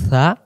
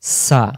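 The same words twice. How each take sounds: First: সা said as "tha"; soft tongue-tip tha. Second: সা with a thin, clear s; hissing sin. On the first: Teacher drilling two letters, tongue-tip tha. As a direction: let the tongue tip soften সা. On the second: Teacher drilling two letters, sibilant sa. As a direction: make সা a clean hiss. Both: Shown as a demonstration. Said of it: "দুই অক্ষর দুইভাবে উচ্চারণ হবে".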